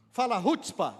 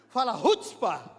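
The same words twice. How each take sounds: First: Said in the usual way. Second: Punchy, forceful "rutzpah"; with chutzpah. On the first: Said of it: "fala rutzpah assim, com rutzpah". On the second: Shown as a demonstration. Preacher urging congregation to repeat it, bold "rutzpah". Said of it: "com rutzpah".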